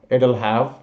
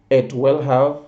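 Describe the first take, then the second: First: It and will merge into two short syllables. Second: Every word is said in full.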